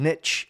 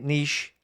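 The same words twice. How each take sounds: First: It uses the pronunciation heard in Canada. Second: It uses the pronunciation common in British English. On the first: "I moved over to Canada, and I heard a few people saying niche" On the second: "I grew up pronouncing it niche"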